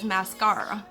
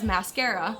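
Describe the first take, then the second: First: It is said in a British accent. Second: It is said in an American accent. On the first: "while British English says mascara" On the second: "American English says mascara"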